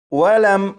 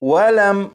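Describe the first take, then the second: Both takes have the same delivery.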